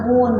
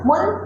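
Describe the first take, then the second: First: "मून" with a long held oo; "मून", oo drawn out and rounded; long oo sound. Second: "मून" with the vowel cut short; "मून", brief vowel, no stretch; short oo, wrong take. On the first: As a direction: stretch the vowel in "मून". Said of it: "मून बोलते हैं ना". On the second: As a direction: say "मून" quickly, like "mun". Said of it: "मून नहीं बोलते हैं". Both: Shown as a demonstration.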